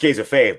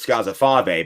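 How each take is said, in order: First: The name is said with plain American sounds. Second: The name is said with Italian sounds. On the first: "I said Alex Scazzafave" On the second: "in the traditional Italian way"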